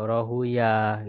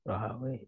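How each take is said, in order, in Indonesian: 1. Nama itu berakhir dengan bunyi -uyah. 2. Nama itu berakhir dengan bunyi -awi. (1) "Kalau ahli hadis tuh lebih suka membaca eh, Rohuyah"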